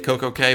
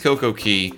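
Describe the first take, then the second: First: The last word is said like 'kay'. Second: The last word is said like 'key'. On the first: This is the older, habitual pronunciation. "occasionally I drop out and say it Coco K" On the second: This is the pronunciation now in use. "but it is Coco Key"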